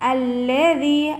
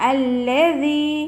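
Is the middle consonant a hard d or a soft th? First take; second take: soft th; soft th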